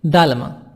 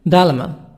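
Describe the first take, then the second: Both takes have the same delivery.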